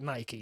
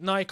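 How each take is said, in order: First: Pronounced the way it is said in America. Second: Pronounced the way it is said locally. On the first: "I know in the States a lot of people call it Nike" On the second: "I know here a lot of people call it Nike"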